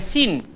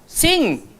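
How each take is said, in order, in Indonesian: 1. Kata itu diakhiri bunyi n biasa. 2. Kata itu diakhiri bunyi sengau ng. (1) "dia bukan sin" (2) "dia akan jadi ng. Sing"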